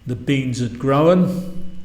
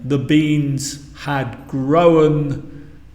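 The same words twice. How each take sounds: First: The word had is contracted to a 'd sound. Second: The word had is said in full. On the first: "a native speaker would say" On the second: "Instead of saying"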